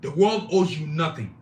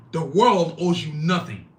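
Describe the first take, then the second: First: Said in the usual way. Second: "The world owes you nothing" drawn out slowly for emphasis; emphatic repeat. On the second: Shown as a demonstration. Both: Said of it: "I'm gonna say that again".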